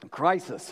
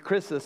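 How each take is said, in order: First: The word is pronounced as in English. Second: The word is pronounced as in Greek. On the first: "You want to pronounce that in English?" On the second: "It'd be Chrysis in Greek"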